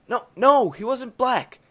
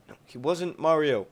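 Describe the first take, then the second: First: A high, loud "No, no" insisting, stress on black; emphatic correction. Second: Said in the usual way. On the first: Real, not acted. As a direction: correct him firmly, leaning hard on "black". Second correction, sharply emphatic.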